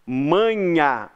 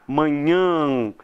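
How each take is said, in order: First: "Manhã" said without nasalizing, ending in an open oral A like "manha"; oral final A. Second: "manhã" with the last A sent through the nose; nasalized final vowel. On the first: Teacher shows the word without its tilde, "Manhã" ending in oral A. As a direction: say "Manhã" with the last A only through the mouth, held long. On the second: Teacher shows what the tilde does, "manhã" ending in nasal A. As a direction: nasalize the end of "manhã", held long. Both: Shown as a demonstration. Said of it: "Você manda o som do A pra cá".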